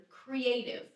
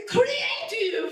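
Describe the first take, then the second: First: Said in the usual way. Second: Put-on loud, high "creative!" in a heavy Italian accent; grandma belting "creative!" as if it were Italian. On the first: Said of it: "how do you say the word creative in Italian". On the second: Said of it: "saying them with this super heavy Italian accent".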